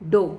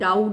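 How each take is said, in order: First: The vowel sounds like the one in 'go'. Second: The vowel sounds like the one in 'cow'. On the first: The speaker calls it right. "The right इज डो" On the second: The speaker calls it wrong. "Which इज़ wrong pronunciation"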